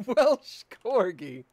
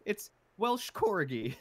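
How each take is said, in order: First: Laughing, much louder and slow through "Welsh Corgi". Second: High, slow, hammed-up British accent; fake British accent. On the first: Real, not acted. Friend laughing while echoing the movie joke. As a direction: crack up while repeating it. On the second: Quoting the movie's disguised hero in a fake British accent. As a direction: drawl "Welsh Corgi" in a silly British voice. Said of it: "horrible British accent".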